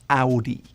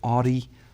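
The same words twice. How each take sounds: First: It is said the German way. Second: It is said the English way.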